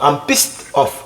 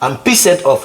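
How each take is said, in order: First: The -ed ending is not said as a syllable. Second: The -ed ending is said as an extra syllable. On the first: The speaker calls it right. "Lui là, il se prononce pas" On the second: The speaker calls it wrong.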